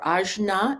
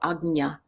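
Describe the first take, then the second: First: The middle consonant is a 'j' sound. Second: The middle consonant is a 'gny' sound. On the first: The speaker calls it wrong. "or ajna, A J N A" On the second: The speaker calls it right. "agnya is kind of the more proper pronunciation"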